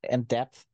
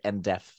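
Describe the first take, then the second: First: The p sound is clearly pronounced in 'depth'. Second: The word sounds like 'deaf', without a p. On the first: The speaker calls it right. "There it is. There is a P" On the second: The speaker calls it wrong. "he pronounces it as deaf"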